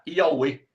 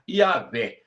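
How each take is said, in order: First: The middle sound is a u-like vowel glide. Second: The middle sound is a v consonant. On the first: The letter is read as a vowel. "Se eu usar o W como uma vogal" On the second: The letter is read as a consonant. "Se eu usar o W como uma consoante"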